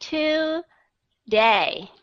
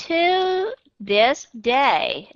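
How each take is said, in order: First: Today drawn out, each syllable clear; today, every sound spelled out; slow spelled-out today. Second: To said with a full oo; To with a clear oo vowel. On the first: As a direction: stretch today slowly, syllable by syllable. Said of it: "viết rõ nó ra". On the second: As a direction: say To this day as separate clear words. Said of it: "nếu như bạn viết cái chữ to only". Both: Shown as a demonstration.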